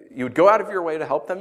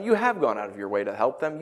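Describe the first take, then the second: First: Said in the usual way. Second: "have" stressed as proven fact. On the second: Shown as a demonstration. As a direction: lean firmly on "have". Corrects "would" to "have gone.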